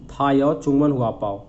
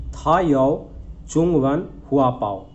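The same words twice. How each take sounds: First: Said in the usual way. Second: "था यो चुंगवन हुआ पाओ" said slowly, word by word; slow model reading. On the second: Shown as a demonstration. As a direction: read the Chinese slowly for students.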